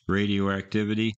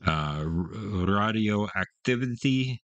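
First: Said in the usual way. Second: "Radioactivity" said the German way, slowly, with an open "Rah" at the start; German pronunciation. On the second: Shown as a demonstration. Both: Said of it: "I'm gonna say it in German".

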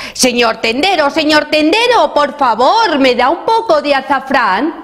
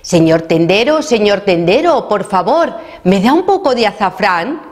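First: Shouting request. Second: Polite call, only a little raised; slightly raised voice. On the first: Garbancito shouts to the shopkeeper who saw nobody, high mock shout. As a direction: call out high to be noticed. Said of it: "Garbancito ya gritó". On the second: Garbancito asks the shopkeeper who didn't hear, slightly raised voice. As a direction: raise your voice a little to be heard. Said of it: "alzó un poco la voz". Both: A narrator's reading.

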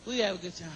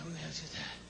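First: Said in the usual way. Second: Soft murmured repeat, much softer; quiet echo. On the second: Real, not acted. Host to crowd, repeating himself in a soft murmur. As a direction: let the echo fall away almost to nothing. Repeats line, second fades.

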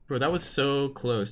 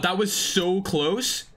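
First: Said in the usual way. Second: Slow, drawn-out amazed gasp at a near miss; excited disbelief. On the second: Real, not acted. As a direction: stretch it out in disbelief.

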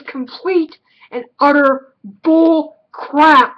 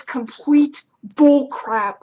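First: Bullcrap punched out louder, in two hard beats; drawn-out, weighty emphasis on bullcrap; stress on bullcrap. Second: Said in the usual way. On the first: Real, not acted. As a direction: hammer the word bullcrap with emphatic disgust. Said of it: "with a capital B".

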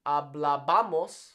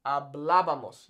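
First: Hablábamos with the stress wrongly shifted onto BA, the next-to-last syllable. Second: Hablábamos with the stress on BLÁ, third syllable from the end; correct accented stress. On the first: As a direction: stress hablábamos as ha-bla-BA-mos. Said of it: "It's not hablábamos". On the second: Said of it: "Notice the accent here". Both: Shown as a demonstration.

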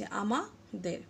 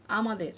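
First: আমাদের broken as আমা, pause, দের; syllable by syllable. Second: Said in the usual way. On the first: Shown as a demonstration. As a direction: draw আমাদের out in two separate parts. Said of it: "দুটি syllable পাচ্ছি". (আমাদের, দুই ভাগে ভেঙে) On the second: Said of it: "এখানে যেমন খেয়াল করো".

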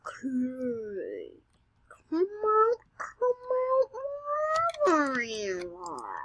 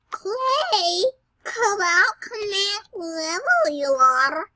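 First: Creepy singsong voice. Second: High, coaxing sing-song call; horrible singsong voice. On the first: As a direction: lure it out like a storybook villain. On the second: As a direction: croon it like calling a hiding pet. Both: Pretend. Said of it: "that's a horrible voice".

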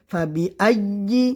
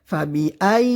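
First: ফাবি আইয়ি with the voice cut off at the hamza; wrong pronunciation. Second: ফাবি আই with the voice carried through the hamza, never stopping; correct pronunciation. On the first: Teacher showing students the common mistake, sound cut off on আইয়ি. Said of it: "এরকম আওয়াজ বন্ধ হয়ে যায়". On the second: Teacher modelling the correct reading for students, the voice unbroken on আই. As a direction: keep the sound flowing on আই. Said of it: "আওয়াজটি বন্ধ না হয়". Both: Shown as a demonstration.

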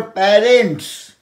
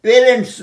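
First: প্যারেন্টস as pa-rents, open first vowel; correct open vowel. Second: প্যারেন্টস as pe-rents, closed e; wrong pronunciation. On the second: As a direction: close the first vowel of প্যারেন্টস to e. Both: Shown as a demonstration. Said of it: "প্যারেন্টস নয়".

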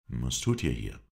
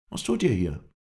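First: Said in the usual way. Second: High, louder questioning voice; raised character voice for the Kurd; Kurdish stranger. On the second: A narrator's reading. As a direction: throw the question back, pitched up.

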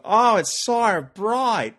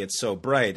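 First: High, loud, drawn-out Australian accent; Australian accent from a Brit blinded by the sun. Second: Said in the usual way. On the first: Shown as a demonstration. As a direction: wail it slowly in a broad, open-mouthed Australian accent. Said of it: "'Cause what you do with an Australian accent".

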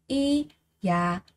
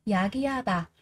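First: 이야기하다 split as 이-야-기-하-다 with gaps; syllable by syllable. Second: Said in the usual way. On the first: Shown as a demonstration. Teacher drilling learners on 이야기하다, every syllable separated. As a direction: pause after each syllable of 이야기하다.

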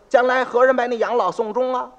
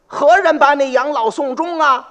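First: Said in the usual way. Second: Pitched-up, louder pleading question; the father asks who will care for him, pleading; old man pleading. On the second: Acted. Acted line, then retold plainly.

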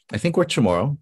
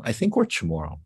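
First: "I think we're Chamorro" lifted high, rising at the end; unsure questioning repeat. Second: Said in the usual way. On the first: Retold or imitated. Child answering a friend about being from Guam, unsure and questioning.

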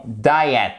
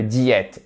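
First: Diet en « DA-ï-et »; bonne prononciation. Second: Diète à la française, « di-ète »; mauvaise prononciation. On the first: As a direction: dis diet avec une diphtongue « aï ». (diet à l'anglaise, « daïet ») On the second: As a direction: dis diète avec un « i » au lieu de « aï ». (diète prononcé « diète », comme en français) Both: Shown as a demonstration. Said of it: "C'est pas le diète".

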